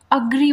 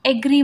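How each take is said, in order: First: अग्री with a short first अ; correct agree. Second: एग्री with a long ए at the start; wrong agree. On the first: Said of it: "अग्री बोलते हैं". (अग्री, छोटे अ से शुरू) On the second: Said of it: "एग्री बहुत से लोग बोलते हैं". (एग्री, गलत लंबा ए) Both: Shown as a demonstration.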